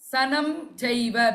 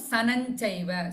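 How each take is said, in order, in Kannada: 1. ಮೊದಲ ಪದವು m ಧ್ವನಿಯಲ್ಲಿ ಕೊನೆಗೊಳ್ಳುತ್ತದೆ. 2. ಮೊದಲ ಪದವು n ಧ್ವನಿಯಲ್ಲಿ ಕೊನೆಗೊಳ್ಳುತ್ತದೆ.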